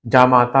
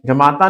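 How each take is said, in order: First: जामाता with long first aa; correct form जामाता. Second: जमाता with short first a; wrong form जमाता. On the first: Teacher giving the son-in-law word, long aa in जामाता. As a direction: open out the first vowel of जामाता. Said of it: "जामाता होता है". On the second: Teacher rejecting the misspelling, short a in जमाता. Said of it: "जमाता नहीं होता". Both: Shown as a demonstration.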